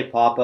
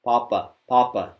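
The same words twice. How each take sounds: First: Papa with a loose breathy p like an English speaker; aspirated papa, air into the hand. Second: Papa with the breath held back, tight unaspirated p. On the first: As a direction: let air spill out on the p of papa. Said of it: "if you just say papa like an English speaker". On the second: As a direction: restrain the air and say papa, papa. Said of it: "say it by holding your breath". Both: Shown as a demonstration.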